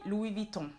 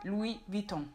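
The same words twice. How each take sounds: Both takes have the same delivery.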